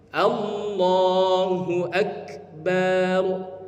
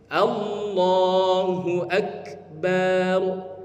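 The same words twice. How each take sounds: First: The vowel after b in Akbar is drawn out. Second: The same.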